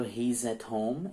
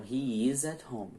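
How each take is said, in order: First: "he's" as one syllable, HEEZ, before "at home"; contracted form. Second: "he is" as two words before "at home"; full form. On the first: Teacher giving an example of contraction, "he's" as one syllable. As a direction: link "he's" straight into "at home". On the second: Teacher expanding the example, "he is" said in two syllables. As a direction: open out the contraction, sounding "is" in "he is". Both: Shown as a demonstration. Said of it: "é uma contração".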